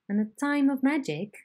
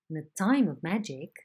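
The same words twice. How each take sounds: First: The pitch stays level and high before the final fall. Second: The pitch steps down gradually before the final fall. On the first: "C is a high head" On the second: "A is a falling head"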